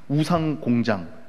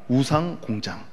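First: The first word ends with an 'n' sound. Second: The first word ends with an 'ng' sound. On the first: The speaker calls it wrong. "발음이 잘 안 되네" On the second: The speaker calls it right. "우산이 아닙니다"

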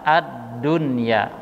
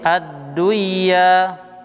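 First: The n is pronounced clearly before the y. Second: The n merges into the following y. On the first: The speaker calls it right. "Akan tetapi dibaca dengan ad-dunya" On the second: The speaker calls it wrong. "tidak juga dibaca dengan seperti ad-duya"

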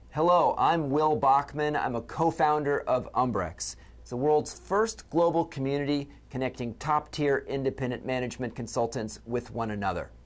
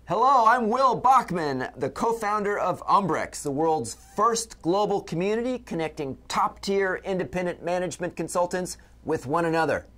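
First: It is said with moderate, normal energy. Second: It is said with exaggerated, game-show energy.

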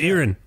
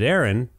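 First: The first vowel is heavily emphasized and drawn out. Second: The first vowel sounds like the common given name. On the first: The speaker calls it right. "you really went all in on that first letter" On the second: The speaker calls it wrong. "because that's what it looks like. It looks like the name Erin"

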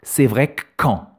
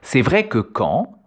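First: The vowel is dropped, giving a doubled k sound. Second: The vowel in 'que' is fully pronounced. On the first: "Le « e » du mot « que » est supprimé ... le son « k » est alors doublé" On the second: "« C'est vrai que quand » se prononce alors"

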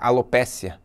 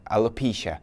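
First: The word is pronounced the Portuguese way. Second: The word is pronounced the English way. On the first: "Alopecia é alopécia" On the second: "A pronúncia em inglês é alopecia"

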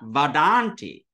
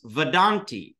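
First: The first vowel is long. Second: The first vowel is short. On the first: The speaker calls it wrong. "not vedanti" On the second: The speaker calls it right. "it does not become a long A. It becomes short"

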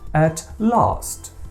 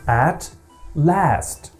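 First: It is said with a British vowel in 'last'. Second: It is said with an American vowel in 'last'. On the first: "як кажуть британці" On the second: "я прихильник American English"

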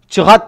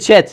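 First: The word is said as two syllables. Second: The word is said as one syllable. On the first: The speaker calls it wrong. "Çıhat değil" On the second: The speaker calls it right. "Chat diye söyleniyor"

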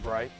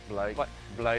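First: The word is said in a plain American accent. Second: The word is said in a put-on British accent.

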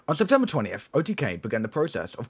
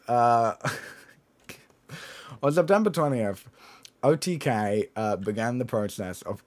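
First: It is read in a put-on voice. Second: It is read in a natural voice. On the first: The speaker calls it wrong. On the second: The speaker calls it right.

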